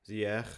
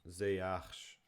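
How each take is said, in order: First: The name ends with a throaty g-like sound. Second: The name ends with a soft sh sound. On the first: "Dutch people say like Z with like a G sound at the end" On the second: "Ziyech is pronounced Ziyash"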